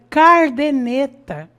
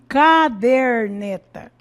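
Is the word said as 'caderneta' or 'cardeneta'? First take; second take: cardeneta; caderneta. First: The r comes after the first syllable. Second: The r comes after the second syllable. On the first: The speaker calls it wrong. "nós vemos aí cardeneta" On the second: The speaker calls it right. "Ao invés de caderneta"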